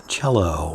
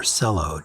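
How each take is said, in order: First: "Cello" said CHELL-oh; CH pronunciation. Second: "cello" said with an S, SELL-oh; soft-C pronunciation. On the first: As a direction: start "Cello" with a ch sound. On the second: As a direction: start "cello" with an s sound. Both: Shown as a demonstration. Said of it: "not sure which way it's pronounced".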